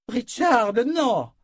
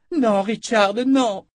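First: High, loud cry of alarm; a woman's sharp cry to stop him. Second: High, loud pleading cry; desperate shout. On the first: Nietzsche cries out to stop Richard: high, loud cry. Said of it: "cria Nietzsche". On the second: Nietzsche clings to Richard to stop him charging: high, loud cry. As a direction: cry out to hold him back. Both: Acted.

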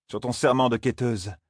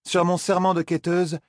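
First: A hint of solemn command, serment stressed; Moiraine dictating the oath. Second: Put-on higher, solemn young woman's vow; Zarine swearing. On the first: Moiraine imposing the oath on Zarine, lightly voiced and solemn. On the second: Zarine swears to Moiraine, higher and solemn. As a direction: swear it with a lifted, earnest voice.

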